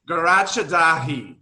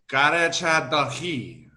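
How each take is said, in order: First: The name is said with an anglicized accent. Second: The name is said with a native-sounding accent. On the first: The speaker calls it wrong. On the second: The speaker calls it right. "put some like flavor to the accent"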